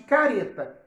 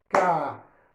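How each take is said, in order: First: Said in the usual way. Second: "Careta." split as ca, re, ta with pauses; syllable by syllable. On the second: Shown as a demonstration. ("Careta." dividido: ca, re, ta) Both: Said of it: "a divisão é normal".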